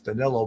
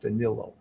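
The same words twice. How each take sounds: First: The name is read out in an English way. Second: The name is said in a Portuguese way. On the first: The speaker calls it wrong. "in essence Danilo" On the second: The speaker calls it right. "it's pronounced Danilo"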